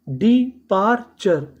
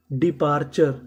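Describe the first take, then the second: First: departure drawn out slowly, every syllable clear; slow teacher model. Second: Said in the usual way. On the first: Shown as a demonstration. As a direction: spell out departure slowly for learners. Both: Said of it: "departure का मतलब".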